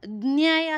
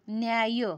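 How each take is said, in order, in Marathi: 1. पहिला आवाज जबरदस्तीने आणि ताणलेला आहे. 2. पहिला आवाज सहजपणे शब्दात मिसळतो. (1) "न्याय असं बोलले का, न्याय नाही" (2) "सहज बोलले न्याय"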